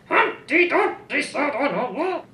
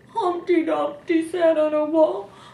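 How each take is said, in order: First: It is read in a mad tone. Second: It is read in a sad tone.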